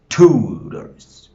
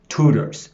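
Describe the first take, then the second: First: "tutors" with a long, loud TUUU; exaggerated first-syllable stress. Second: "Tutors" said briskly, TU strong; stress on first syllable. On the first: Teacher proving which syllable is strong, drawn-out loud TU in "tutors". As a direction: stretch and punch the TU of "tutors". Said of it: "the syllable that sound strong". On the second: Teacher showing the class the stressed syllable, TU strong in "Tutors". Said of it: "that is the stressed syllable". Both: Shown as a demonstration.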